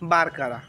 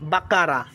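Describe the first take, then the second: First: It has an r sound before the k. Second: It has no r sound before the k. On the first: The speaker calls it wrong. "Not বারকারা" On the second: The speaker calls it right. "This is black বাকারা"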